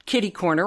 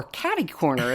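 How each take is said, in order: First: "kitty" said with a short i; local pronunciation. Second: "catty" said with a short a; American variant. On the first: Host gives her own term for the seating, "kitty" with short i. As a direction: say "kitty" to rhyme with city. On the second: Host quotes the term used in the States, "catty" with short a. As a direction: say "catty" to rhyme with batty. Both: Shown as a demonstration. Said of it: "as they say down in the States".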